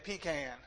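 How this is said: It is said the North Carolina way.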